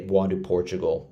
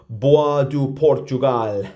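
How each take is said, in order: First: The name is said with an English pronunciation. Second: The name is said with a French pronunciation. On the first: This is the speaker's habitual, likely butchered pronunciation. The speaker calls it wrong. "I'm probably butchering it. But I'm just going to say" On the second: This is likely the proper pronunciation. The speaker calls it right. "It's probably"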